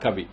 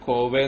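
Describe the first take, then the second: First: The first vowel sounds like a short 'a'. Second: The first vowel sounds like a long 'o'. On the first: The speaker calls it right. "അങ്ങനെ അല്ലാതെ pronunciation" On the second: The speaker calls it wrong. "ചിലർ കോവെ എന്നാണ് പറയാ"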